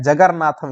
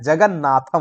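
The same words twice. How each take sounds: First: जगरनाथम with an r sound in the middle, shown as the wrong way; teacher demonstrating the wrong form जगरनाथम; wrong pronunciation. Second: जगन्नाथम with a doubled n, no r; correct pronunciation. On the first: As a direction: say जगरनाथम with a rolled r before नाथम, as the mistake. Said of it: "ये भी नहीं होता है". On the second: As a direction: say जगन्नाथम clearly, holding the double न. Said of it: "होता है". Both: Shown as a demonstration.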